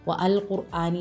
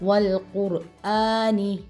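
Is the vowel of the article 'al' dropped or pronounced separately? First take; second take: pronounced; dropped. First: The 'a' of 'al' is pronounced separately. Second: The 'a' of 'al' is dropped and linked. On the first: The speaker calls it wrong. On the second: The speaker calls it right.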